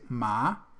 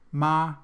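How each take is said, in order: First: The pitch rises from mid to high. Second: The pitch stays high and level. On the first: It means hemp. "it's hemp" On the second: It means mother. "if we say it in the first tone"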